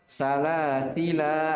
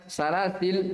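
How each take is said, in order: First: The word ends on a long vowel. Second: The word ends on a bare consonant. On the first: The speaker calls it right. "tapi apa? Salasila" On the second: The speaker calls it wrong. "bukan salasil"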